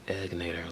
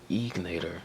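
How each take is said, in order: First: The first vowel is a short E, as in egg. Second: The first vowel is not a short E. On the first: The speaker calls it right. "it should be Egnator, like boiled eggs. Short E" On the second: The speaker calls it wrong. "They say Egnator"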